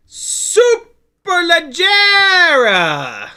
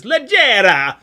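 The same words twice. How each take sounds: First: Superleggera belted out much higher, louder and very slow, Italian style; hammed-up Italian pronunciation. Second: Put-on Leggera said loud and higher in a blunt American accent; mock American accent. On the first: Shown as a demonstration. Naming the propellers, shouting Superleggera in a showy Italian accent. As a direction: stretch Superleggera with a big showy Italian flourish. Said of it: "I said it like an American with a proper R".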